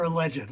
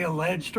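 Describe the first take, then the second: First: "alleged" as uh-LEJ-id, three syllables. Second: "alleged" as uh-LEJD, two syllables. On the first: Asking viewers how they say it, "alleged" as uh-LEJ-id. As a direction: sound the final -ed in "alleged" as its own syllable. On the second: Asking viewers how they say it, "alleged" as uh-LEJD. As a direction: say "alleged" with a silent second e. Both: Shown as a demonstration. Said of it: "Do you say alleged or alleged".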